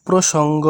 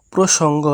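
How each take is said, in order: Both takes have the same delivery.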